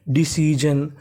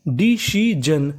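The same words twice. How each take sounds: First: Said in the usual way. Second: "डिसीजन" in slow separate syllables, डि-सी-जन. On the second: Shown as a demonstration. Teacher building the word डिसीजन for students, slowly syllable by syllable. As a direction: stretch out each part of "डिसीजन". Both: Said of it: "तो meaning क्या बनी?".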